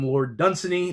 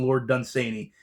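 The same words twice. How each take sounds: First: Dunsany with a short, unstressed middle, DUN-suh-nee; alternative pronunciation. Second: Dunsany with a long AY in the middle, dun-SAY-nee; preferred pronunciation. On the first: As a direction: say Dunsany stressed up front, no "say" in it. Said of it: "I've heard some people call him". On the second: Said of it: "I've heard more people call him". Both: Shown as a demonstration.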